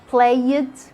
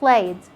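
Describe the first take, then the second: First: The ending is voiced as a separate extra syllable. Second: The ending is said without any extra syllable. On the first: The speaker calls it wrong. "we don't say played" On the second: The speaker calls it right. "Drop the sound of the E"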